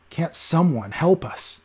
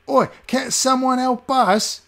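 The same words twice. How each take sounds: First: Said in the usual way. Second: Very high, slow, louder; mock his plea in a whiny beggar voice; mocking beggar echo. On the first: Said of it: "he said, looking at the cold faces".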